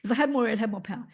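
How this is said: The voice is carried on a strong airflow. The speaker calls it right. "now we're going to do it pushing the air"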